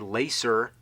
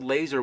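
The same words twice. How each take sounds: First: The middle consonant is an S sound. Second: The middle consonant is a Z sound. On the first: The speaker calls it wrong. "You don't say laser" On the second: The speaker calls it right. "spelled laser with a Z because that's how you say it"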